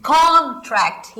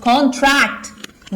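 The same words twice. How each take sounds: First: "contract" slowly, with a long strong कॉन; stress on first syllable. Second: "contract" with the weight on tract; stress on second syllable. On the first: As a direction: stretch कॉन at the start of "contract". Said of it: "ये हो गया noun". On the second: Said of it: "verb". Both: Shown as a demonstration.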